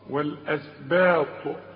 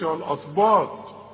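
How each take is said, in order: First: The word is said with light, thin sounds. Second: The word is said with heavy, emphatic sounds. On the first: The speaker calls it right. "كانوا كلها مرققة" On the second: The speaker calls it wrong. "فما تقولش الأسباط"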